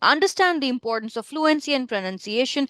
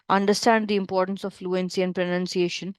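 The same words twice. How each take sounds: First: It is said in a higher, livelier pitch. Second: It is said in a flat, low pitch. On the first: The speaker calls it right. "you have to make it a little high" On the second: The speaker calls it wrong. "if I have to speak this in my normal pitch ... So boring"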